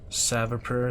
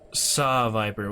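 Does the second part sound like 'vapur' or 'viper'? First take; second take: vapur; viper. First: The second part is said like 'vapur'. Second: The second part is said like 'viper'. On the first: The speaker calls it wrong. "Was I saying Savapur or something?" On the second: The speaker calls it right. "Pronounced Saw Viper"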